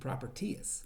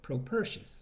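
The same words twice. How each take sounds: First: The name is said in a Kentucky accent. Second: The name is said in a standard pronunciation.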